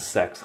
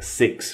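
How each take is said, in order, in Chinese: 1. 这个元音的发音像 'set' 里的元音。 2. 这个元音的发音像 'sit' 里的元音。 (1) "不要读成sex" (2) "6 是six"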